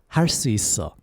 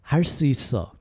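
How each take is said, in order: The two takes are said the same way.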